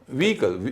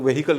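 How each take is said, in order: First: The h sound is left out entirely. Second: The h sound is pronounced in the middle. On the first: The speaker calls it right. "इसमें एच का उच्चारण नहीं होता है" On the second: The speaker calls it wrong. "लोग वेहिकल कहते हैं उसको"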